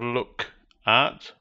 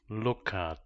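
First: The k is held at the end of look. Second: The k links into at; vowel held longer. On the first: The speaker calls it wrong. "with the focus on k" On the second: The speaker calls it right. "the emphasis remains a little longer on the vowel sound u"

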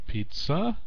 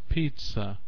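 First: The stress is on the second syllable. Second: The stress is on the first syllable. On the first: The speaker calls it wrong. "it's not pizza" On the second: The speaker calls it right. "first syllable is stressed"

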